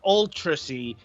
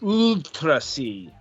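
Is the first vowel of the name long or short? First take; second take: short; long. First: The first vowel is said short. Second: The first vowel is drawn out long. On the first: The speaker calls it wrong. "So it's not ultra C" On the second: The speaker calls it right. "supposed to pronounce it ultra... denoting elongation of the vowel"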